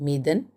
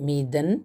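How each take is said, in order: The two takes are said the same way.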